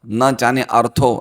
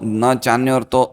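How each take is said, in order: First: A separate 'a' vowel is sounded before 'rtho'. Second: The vowels merge with no separate 'a' sound. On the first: The speaker calls it wrong. "ऐसे नहीं बोलना है" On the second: The speaker calls it right. "तो फिर हमें अ नहीं बोलना है, वो अ silent है।"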